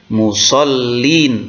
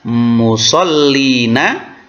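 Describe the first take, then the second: First: The word ends with a consonant sound. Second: The word ends with a vowel sound. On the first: The speaker calls it right. "tetapi musallin" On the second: The speaker calls it wrong. "tidak dibaca fawailul lil musallina"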